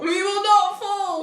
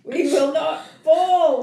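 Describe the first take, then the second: First: High, slow mock battle cry; echoed rallying cry. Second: Slow, louder rallying cry; mock rallying speech. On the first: Co-host echoes the rally, mock-heroic cry. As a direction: echo it back, higher and drawn out. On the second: Host rallies the women, mock-heroic speech. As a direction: declare it like a wartime leader.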